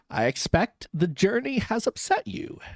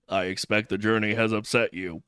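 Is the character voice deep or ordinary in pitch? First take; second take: ordinary; deep. First: The voice is at an ordinary pitch. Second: The voice is pitched deep and low.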